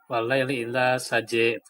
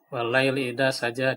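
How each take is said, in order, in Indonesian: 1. Vokal terakhir bergeser ke arah bunyi e. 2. Vokal terakhir adalah bunyi a yang terbuka.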